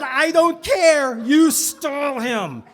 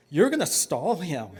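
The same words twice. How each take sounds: First: Loud, high, drawn-out command; insistent mock shout. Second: Measured, firm order to a brother; firm instruction. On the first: Child ordering brother to stall the rabbi, loud insistence. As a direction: overrule him, hammering each word slowly. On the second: Acted. Child instructing brother to stall the rabbi, firm. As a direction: lay out the plan without raising your voice.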